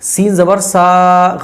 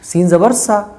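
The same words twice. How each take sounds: First: The final vowel is drawn out long. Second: The final vowel is said short and quick. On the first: The speaker calls it wrong. "खींच के नहीं पढ़ना है ... गलत है" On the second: The speaker calls it right. "जल्दी पढ़ जाएंगे"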